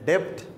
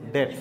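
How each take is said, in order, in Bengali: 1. শেষের t-এর আগে একটি p-সদৃশ ধ্বনি আসে। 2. শব্দটি সাধারণ t দিয়ে শেষ হয়, কোনো p নেই। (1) "not ডেপ্ট" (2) "it is ডেট, বি silent"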